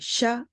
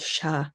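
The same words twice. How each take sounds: First: The syllable is said with a high tone. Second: The syllable is said with a low tone. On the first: "a regular sh, the way you would say it in English, but with a high tone" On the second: "the lower tone sha"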